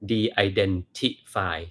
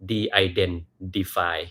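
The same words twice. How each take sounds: First: The middle t is a clear t sound. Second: The middle t is softened toward d. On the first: This is how a Thai reader would say it. "ถ้าเป็นคนไทยจะอ่านว่าอะไร" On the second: This sounds like an American speaker. "ให้เปลี่ยนตัว T เป็นตัว D นิดหนึ่ง"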